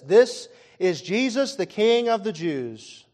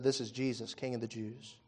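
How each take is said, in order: First: Slow, loud announcement of the sign's words; slow proclaimed reading. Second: Soft, scornful mock title. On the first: Shown as a demonstration. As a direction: read the sign out slowly and loudly. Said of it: "it says". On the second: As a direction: sneer it quietly like a jeering crowd. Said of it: "They mocked him".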